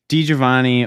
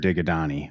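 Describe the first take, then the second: First: The name is said with a 'jo-vah' middle. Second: The name is said with a 'ga-dah' middle.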